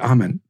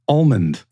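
First: The L sound in the word is silent. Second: The L sound in the word is pronounced. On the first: "You say almond" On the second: "There's an L in there"

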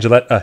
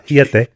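First: The name is pronounced the usual English way. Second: The name is pronounced the Spanish-sounding way.

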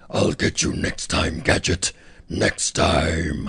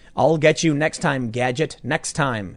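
First: It is said in a low, deep voice. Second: It is read in an ordinary speaking voice.

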